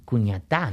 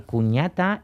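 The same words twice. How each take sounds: First: Cuñatá stressed on the last syllable, ta; cuñaTÁ, stress at the very end; final stress. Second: Cuñata stressed on the middle syllable, ña; cuÑAta, last syllable light; penultimate stress. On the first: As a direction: land the weight on the final á of cuñatá. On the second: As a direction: lean on ña in cuñata. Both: Shown as a demonstration. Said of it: "esa vocal tónica varía".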